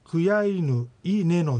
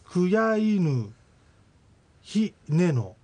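First: A bare i vowel without h precedes neno. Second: A full syllable with an h sound precedes neno. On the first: "クヤイヌイネノになって" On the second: "クヤイヌヒネノが"

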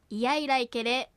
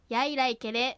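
First: It is said slowly with the opening i clear. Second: It is said fast with the opening i weakened. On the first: "ゆっくり丁寧な発音ではいやいらいけれのようにいがはっきり発音される" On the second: "早く発音するといが弱まってやいらいけれのように発音される"

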